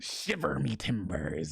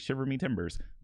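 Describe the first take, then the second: First: It is said in a growly pirate voice. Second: It is said in a plain, normal voice.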